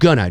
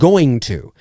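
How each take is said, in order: First: The two words blur into a reduced 'gonna'. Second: Both words are said fully and separately. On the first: It sounds casual and conversational. "what I said there was, I'm just gonna go" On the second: It sounds too formal for dialogue. "it's really I'm going to"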